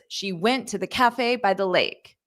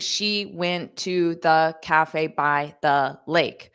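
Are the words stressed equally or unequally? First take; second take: unequally; equally. First: Some words are stressed, others reduced, in rhythm. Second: Every word gets the same even stress. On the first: The speaker calls it right. "And then you can just replace that with words" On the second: The speaker calls it wrong. "instead of saying"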